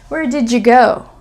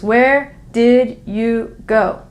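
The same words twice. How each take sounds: First: The d and y join into a j sound. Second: The words are said separately and carefully. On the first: "this sound here is going to turn into a, a kind of a J" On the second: "English teacher voice"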